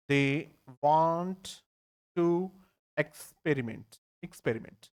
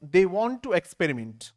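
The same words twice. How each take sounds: First: Each word said slowly with pauses. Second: Said in the usual way. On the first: Shown as a demonstration. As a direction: break it into separate words for the class. (एक-एक शब्द रुककर बोलना)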